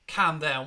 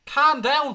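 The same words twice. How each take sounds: First: Said in the usual way. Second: Calm down barked back, high and loud; angry retort. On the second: Real, not acted. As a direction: fling their words back at them. Throwing chat's advice back angrily.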